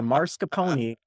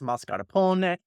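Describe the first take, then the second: First: The R comes before the S sound. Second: The R comes after the S sound. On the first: The speaker calls it wrong. "just put the R back where it belongs" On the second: The speaker calls it right. "if we want to be correct, it's mascarpone"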